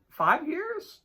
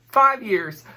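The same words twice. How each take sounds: First: Five years? with a high rising tune; unsure question. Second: Said in the usual way. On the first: Shown as a demonstration. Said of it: "No, six?". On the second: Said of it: "math break".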